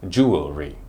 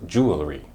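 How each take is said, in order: First: It has three syllables, jew-el-ry. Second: It has three syllables, jew-el-ry.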